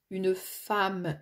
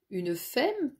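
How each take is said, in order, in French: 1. La voyelle du mot se prononce comme 'a'. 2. La voyelle du mot se prononce comme 'e'. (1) "pourtant il n'y a pas de A" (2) "et non pas"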